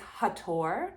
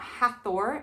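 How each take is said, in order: First: The middle consonant is a plain 't' sound. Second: The middle consonant is a 'th' sound. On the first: The speaker calls it right. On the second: The speaker calls it wrong.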